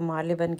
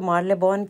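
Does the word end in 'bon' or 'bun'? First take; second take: bun; bon. First: The last syllable sounds like 'bun'. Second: The last syllable sounds like 'bon'. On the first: The speaker calls it right. "आज मुझे पता चला है कि इसको मार्लेबन कहते हैं" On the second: The speaker calls it wrong. "पहले मैं इसको मार्लेबॉन कहती होती थी"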